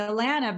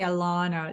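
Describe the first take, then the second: First: The name rhymes with banana. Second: The name has a British-sounding vowel. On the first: The speaker calls it right. "you say Alana, banana" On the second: The speaker calls it wrong. "It's very eloquent or very British or something"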